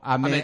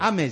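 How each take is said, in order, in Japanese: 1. この単語は関西式のアクセントだ。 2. この単語は標準のアクセントだ。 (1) "関西だと雨" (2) "雨じゃなくて"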